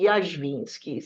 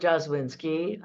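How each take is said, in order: First: The name is said with a Polish pronunciation. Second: The name is said with an English pronunciation. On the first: This is the original form of the name. "in the Polish uh, pronunciation would be" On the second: This is how the name is said locally. "here in this country, I'm Jaswinski"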